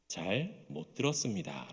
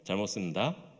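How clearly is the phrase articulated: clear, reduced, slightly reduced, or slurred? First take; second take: clear; reduced. First: Every syllable is pronounced distinctly and carefully. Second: Whole syllables are dropped from the middle. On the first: The lowest-ranked soldier says it. "이등병 때는요, ... 또박또박 이야기를 합니다" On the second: A mid-ranked soldier says it. "상병이 되면은"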